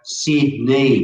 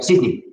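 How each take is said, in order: First: The word is said fully and slowly. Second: The word is said quickly and clipped short. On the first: This is not how Australians say it. "we don't go Sydney" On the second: This is how Australians say it. "we go Sydney"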